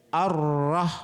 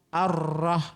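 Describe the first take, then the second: Both takes have the same delivery.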